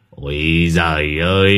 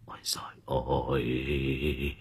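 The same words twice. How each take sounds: First: Long, drawn-out scoffing groan; dismissive exclamation. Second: Feeble whimpering. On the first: Servant waves away his master's anger, scoffing. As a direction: stretch it out at full voice, brushing him off. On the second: Shaken master moans to his servant, feeble and faint. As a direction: let the words drag out weakly, barely any voice. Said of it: "Lão thều thào". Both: A narrator's reading.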